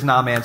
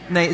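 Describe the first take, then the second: First: The name is said like two words, nah man. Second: The name is said smoothly as one word. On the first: "Nah, man's way more fun" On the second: "what's the right way to say it?"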